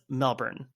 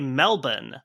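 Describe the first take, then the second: First: It is said with a standard American pronunciation. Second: It is said with an Australian-style pronunciation. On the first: The speaker calls it right. "the standard American pronunciation of it" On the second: The speaker calls it wrong. "hypercorrect ... simply saying it with an Australian accent"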